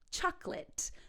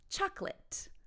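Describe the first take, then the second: First: The word is said with two syllables. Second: The same.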